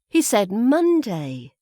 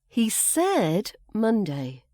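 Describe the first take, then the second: First: The word Monday carries the stress. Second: The word said carries the stress. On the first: It's Monday, not another day. "it's the day of the week that's emphasized" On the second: He stated it rather than implied it. "So he didn't just imply it, he said it"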